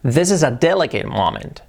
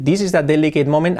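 First: "This is a delicate moment" with short English vowels; English reading. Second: "This is a delicate moment" with Spanish-sounding vowels; Spanish-style reading. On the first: Teacher giving the right version after the wrong one. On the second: Teacher showing the Spanish mistake for contrast. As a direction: read it like a Spanish speaker would. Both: Shown as a demonstration. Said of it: "Cambia mucho decir".

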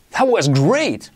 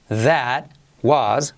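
First: "That was great" joined up, emphatic and slow; frase modelo enlazada. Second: "That... was", one word at a time; palabra por palabra. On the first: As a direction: run "That was great" together with feeling. ("That was great" enlazado, lento y enfático) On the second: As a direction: separate "That" and "was" for repetition. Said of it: "Repite conmigo". (palabra por palabra, con pausas) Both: Shown as a demonstration.

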